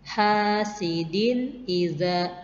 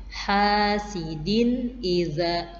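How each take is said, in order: No difference in how they are said.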